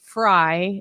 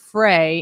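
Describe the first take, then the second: First: The vowel sounds like 'eye'. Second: The vowel sounds like 'ay'. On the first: This is how the family says the name. The speaker calls it right. "my last name is actually Fry" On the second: This is how people guess the name from its spelling. The speaker calls it wrong. "It's not Frey"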